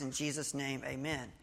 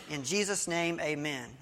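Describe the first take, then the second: First: Softer, dutiful repeat of the leader's words; quiet echo. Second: Said in the usual way. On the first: Retold or imitated. The guy repeating the prayer back, quietly. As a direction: murmur it back like a reluctant echo.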